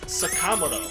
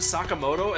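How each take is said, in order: First: The second syllable, ka, is stressed. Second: The syllables are even, with no stress on ka. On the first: The speaker calls it wrong. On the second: The speaker calls it right.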